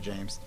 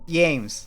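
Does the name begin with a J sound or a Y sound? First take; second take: J sound; Y sound. First: The name begins with a J sound. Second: The name begins with a Y sound. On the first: The speaker calls it wrong. "I had to say it wrong" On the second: The speaker calls it right. "so everyone can hear how to say it right"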